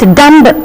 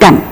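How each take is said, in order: First: A B sound is heard at the end. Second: The word ends on the M sound. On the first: The speaker calls it wrong. "It is not dumb" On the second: The speaker calls it right. "it is dumb"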